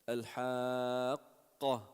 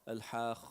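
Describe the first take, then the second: First: The qaf is hard, with a stop. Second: The qaf is soft, almost like kha. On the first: The speaker calls it right. "You want to give it shiddat. Pause in the sound" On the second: The speaker calls it wrong. "when you pronounce qaf softly, it becomes kha"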